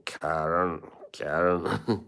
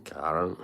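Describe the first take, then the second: First: Karen said with a Scottish lilt, rolled r; Scottish accent. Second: Said in the usual way. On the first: Retold or imitated. Imitating the Scottish host saying Karen in a Scottish accent. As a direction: echo Craig Ferguson saying Karen in Scottish. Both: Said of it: "the way he pronounced her name".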